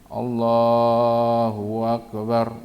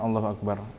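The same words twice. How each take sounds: First: A vowel is stretched out unusually long. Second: The vowels are kept at their normal short length. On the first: The speaker calls it wrong. "karena ada yang dimatkan" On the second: The speaker calls it right. "coba ucapkan Allahu Akbar"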